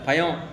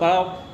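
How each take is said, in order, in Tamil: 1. நடுவில் உள்ள மெய்யெழுத்து ஒரு y ஒலி. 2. நடுவில் உள்ள மெய்யெழுத்து ஒரு சாதாரண l ஒலி. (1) "சென்னை பக்கம் போனால் எல்லாம் யா தான்" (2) "வேறு சில ஏரியாக்கெல்லாம் போனோம்னா"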